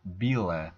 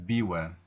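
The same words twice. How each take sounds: First: Bile with a clear l, slow; eastern pronunciation. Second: Biwe with a w sound; biwe, l turned to w; western pronunciation. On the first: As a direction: bile said slowly with a firm l. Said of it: "and bile". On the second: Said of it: "not biwe". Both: Shown as a demonstration.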